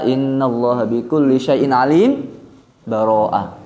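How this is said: There is a brief breathless pause before Baroah.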